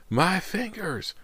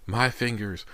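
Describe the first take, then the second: First: Very high, long drawn-out wail; trapped-animal wail. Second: High-pitched cry of pain; agonized cry. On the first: Injured Anthony wails over his mangled hand, drawn-out animal wail. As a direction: stretch it into a piercing wail of pain. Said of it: "wails of a trapped animal". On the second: Injured Anthony cries out over his mangled hand, agonized cry. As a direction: cry out like a trapped animal. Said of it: "Anthony's cries sounded more like the wails". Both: A narrator's reading.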